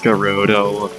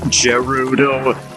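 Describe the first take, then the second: First: The name begins with a hard G sound. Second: The name begins with a soft J sound. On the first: The speaker calls it right. "I've always pronounced it as" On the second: The speaker calls it wrong. "some people pronounce it as uh"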